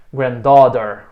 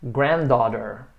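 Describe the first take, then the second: First: Granddaughter with DAUGHTER punched louder; wrong stress on DAUGHTER. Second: Granddaughter said slowly, stressed on GRAND. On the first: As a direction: hit the second part of granddaughter hard, on "daugh". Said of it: "você põe o estresse na segunda parte". (granddaughter com a tônica errada em "daughter") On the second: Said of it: "A sílaba tônica é sempre o grand". (granddaughter com a tônica em "grand") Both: Shown as a demonstration.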